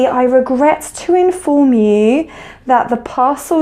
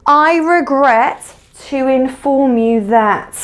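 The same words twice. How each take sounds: First: Said in the usual way. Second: Slow demo phrase. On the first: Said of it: "So it might be". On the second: Shown as a demonstration. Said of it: "You might say".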